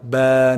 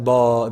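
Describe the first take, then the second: First: The vowel sounds light and thin. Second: The vowel sounds heavy and full. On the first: The speaker calls it right. "with the ba, it's going to be light" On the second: The speaker calls it wrong. "not ba, that doesn't work"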